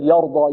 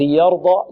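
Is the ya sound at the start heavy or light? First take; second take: heavy; light. First: The ya is pronounced heavy and emphatic. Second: The ya is pronounced light and thin. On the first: The speaker calls it wrong. "لا نقول يرضى" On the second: The speaker calls it right. "الياء مرقة في يرضى"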